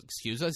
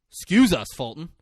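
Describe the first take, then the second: First: "us" lifted as a question; mock incredulous echo. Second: High, loud burst on EXCUSE; "Excuse" punched high, then dropping off; mock affronted protest. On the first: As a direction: toss "Excuse us" back, rising on "us". Acting the other boy's retort. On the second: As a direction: play indignant at being interrupted. Acting interrupted boy's protest.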